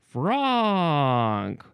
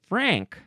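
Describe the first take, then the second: First: The vowel is an open 'ah' sound. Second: The vowel is the 'a' of 'bank'. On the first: "I would want to pronounce it Franck. I think there should be two dots over the A" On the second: "they're making me want to say Frank"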